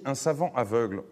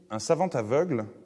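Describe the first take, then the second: First: The t of savant is silent, no linking. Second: A t sound links savant into aveugle. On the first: A scholar who cannot see. "dans le premier cas, sans la liaison" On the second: A blind person who is learned. "Dans le deuxième cas, savant aveugle, avec la liaison"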